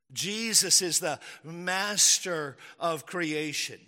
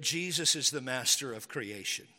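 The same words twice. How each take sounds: First: Slow, weighted stress on "master"; emphatic repeat. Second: Said in the usual way. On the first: Real, not acted. Preacher driving home his first point, slow and emphatic. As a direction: spell out "master of creation" slowly, leaning on "master".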